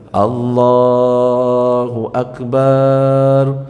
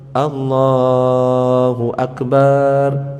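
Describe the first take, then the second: Both takes have the same delivery.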